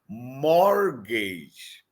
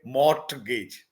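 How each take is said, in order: First: The T sound is silent. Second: The T sound is pronounced. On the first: The speaker calls it right. "T is silent. You have to say it mortgage" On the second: The speaker calls it wrong. "never say mortgage"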